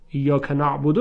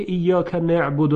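First: نعبد said as "na'budu"; standard vowel. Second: نعبد said as "ne'budu"; dialect vowel. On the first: Teacher shows the form truly revealed, نعبد as "na'budu". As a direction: open the first vowel of نعبد to a. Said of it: "نازل شده". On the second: Teacher shows the form not revealed, نعبد as "ne'budu". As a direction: say نعبد with an e in the first syllable. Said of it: "نه اینکه ایاک نعبد نازل شده". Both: Shown as a demonstration.

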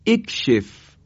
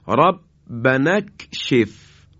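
First: اکشف said alone, opening with a clear e sound; start with kasra. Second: ربنا اکشف said very slowly, with اکشف joined to ربنا; joined recitation. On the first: (اکشف را با کسره در ابتدا بخوانید) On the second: (ربنا اکشف را آهسته و پیوسته بخوانید) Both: Shown as a demonstration. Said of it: "باید بخونیم".

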